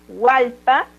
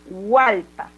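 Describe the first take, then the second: No difference in how they are said.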